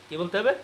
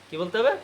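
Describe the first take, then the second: The two takes are said the same way.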